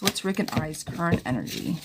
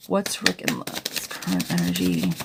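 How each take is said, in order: First: Said in the usual way. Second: Rereading the question in a hammed-up deep voice; mock deep voice. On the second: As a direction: drop into a playful deep oracle voice. Rereads client question in put-on voice.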